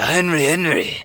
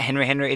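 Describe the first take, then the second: First: It is said in an imitated Asian accent. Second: It is said in the speaker's plain accent.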